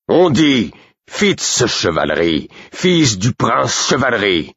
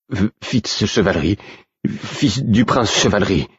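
First: High, slow, emphatic indignation; outraged correction. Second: Halting, higher-pitched stammer. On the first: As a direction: correct the man, drawing out each name in outrage. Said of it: "Burick aussi outragé". (correction outragée, haute et martelée) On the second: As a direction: stumble on the first sound and repeat it meekly. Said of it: "bafouilla l'homme". (bafouillage hésitant, voix plus haute) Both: A narrator's reading.

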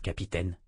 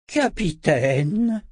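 First: Said in the usual way. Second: Slow drawn-out hiss, pitched high. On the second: A narrator's reading. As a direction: hiss the title with menace. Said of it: "siffla-t-il".

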